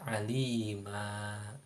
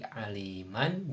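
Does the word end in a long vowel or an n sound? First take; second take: long vowel; n sound. First: The word ends with a lengthened vowel. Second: The word ends with an n sound. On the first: The reading stops at this word. "ketika diwakofkan maka dibacanya alima ... lalu dipanjangkan dua harokat" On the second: The reading continues without stopping. "Seperti contoh aliman. Nah, di situ ada tanwin fathah"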